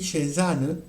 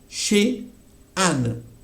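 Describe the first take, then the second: First: The two words run together without a pause. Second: A short pause separates the two words. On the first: The speaker calls it wrong. "Si me hablan así" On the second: The speaker calls it right. "Prefiero que haga la pausa"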